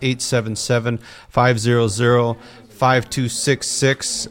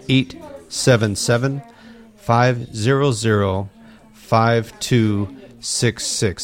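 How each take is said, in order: First: The number is said at a normal pace. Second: The number is said slowly.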